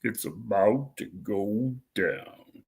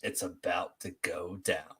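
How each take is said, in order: First: Deepest voice. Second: Slow, deep voice; deepest voice. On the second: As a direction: drop it as low as you can, slowly. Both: Shown as a demonstration. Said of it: "say in your deepest voice possible".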